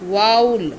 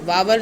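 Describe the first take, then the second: First: No v sound is heard in the middle. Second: A v sound is heard in the middle. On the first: The speaker calls it right. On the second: The speaker calls it wrong. "वावल नहीं"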